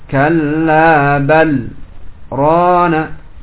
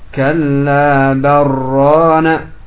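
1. Ada jeda singkat setelah bal, tanpa bernapas. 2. Kata-kata tersambung tanpa jeda. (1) "dibaca dengan sakta, berhenti sejenak tanpa bernafas" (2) "tidak boleh untuk dibaca kalla barana ya, karena berubah maknanya"

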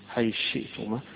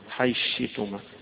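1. تتحول الثاء إلى شين، والهمزة تبقى. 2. تتحول الثاء إلى شين، والهمزة تبقى.

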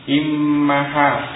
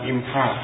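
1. M digandakan dan diikuti vokal. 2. M tunggal tanpa vokal sesudahnya. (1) "mimnya itu tasdid dan fathah, bukan sukun" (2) "bukan imha"

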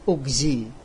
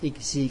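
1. Kata itu diawali dengan vokal u. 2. Kata itu diawali dengan vokal i. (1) "Bukan asli, maka kita tetap membaca ugzi" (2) "membolehkan membaca igzi karena melihat kasro yang terakhir"

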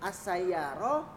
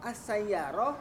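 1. Kata ini berakhir dengan bunyi h saja. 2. Kata ini berakhir dengan bunyi h saja.

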